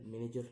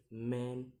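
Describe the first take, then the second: First: Said in the usual way. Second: "manager" in three separated beats; syllable by syllable. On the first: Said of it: "the ending er". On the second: Shown as a demonstration. Teacher demonstrating syllables, "manager" broken in three. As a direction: pause between each syllable of "manager". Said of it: "three syllables to say".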